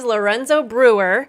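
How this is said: It is said with an American R.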